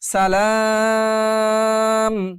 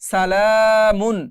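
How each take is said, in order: First: The word ends on m after a long a. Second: The word ends with a short u and n. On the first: The reader stops at this word. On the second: The reading continues without stopping.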